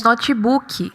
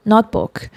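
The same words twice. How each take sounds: First: Notebook as notchi-buki, strong i, stretched u; Brazilian notebook. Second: Notebook, short and dry, notbook; English notebook. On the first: Teacher showing the Brazilian notebook. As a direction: say notebook with extra vowels, Brazilian way. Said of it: "o I é forte, o U é esticado". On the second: Teacher modelling the short English notebook. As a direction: clip notebook short, no extra vowels. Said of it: "a palavra curta e seca". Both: Shown as a demonstration.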